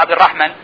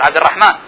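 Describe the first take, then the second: First: The vowel after the m is short. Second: The vowel after the m is long. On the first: The speaker calls it wrong. "لا ننطقها عبد الرحمن" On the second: The speaker calls it right. "نقول عبد الرحمن"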